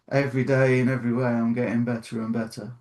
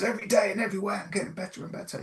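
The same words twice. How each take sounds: First: It is said flatly, without feeling. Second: It is said with passion and energy.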